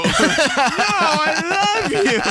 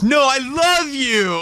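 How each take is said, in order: First: Even higher, laughing lovesick plea; Wayne's World lovesick. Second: High, slow lovesick whine; Wayne's World lovesick. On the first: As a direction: push it higher and sillier. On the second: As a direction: gush it out like a smitten dork. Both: Retold or imitated. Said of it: "like the guy from Wayne's World".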